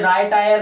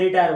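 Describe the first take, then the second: First: The first syllable sounds like 'rye'. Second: The first syllable sounds like 'ree'. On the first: The speaker calls it wrong. "पहले राय टायर नहीं बोला" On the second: The speaker calls it right. "इसने रिटायर बोला"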